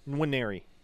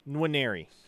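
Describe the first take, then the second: First: A faint N is formed before the W. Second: A faint N is formed before the W.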